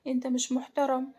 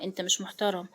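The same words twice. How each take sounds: First: Mildly upset, slightly raised pitch; a touch of tearful fear; tearful, trembling. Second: Understated tearful shock. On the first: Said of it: "ملاك بدموع وهي عمالة ترتعش". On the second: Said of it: "ملاك بصدمة ودموع". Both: A narrator's reading.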